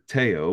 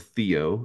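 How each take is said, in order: First: The name is said in a non-American way. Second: The name is said in an American way.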